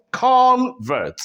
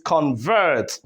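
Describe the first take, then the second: First: Convert with CON high and drawn out, then dropping; stress on first syllable. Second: Convert with CON light and VERT stressed, falling; stress on second syllable. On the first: Teacher showing the noun, first-syllable stress on Convert. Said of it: "when the stress is on the first syllable". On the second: Teacher contrasting the verb, second-syllable stress on convert. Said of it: "when the stress goes to the second syllable". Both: Shown as a demonstration.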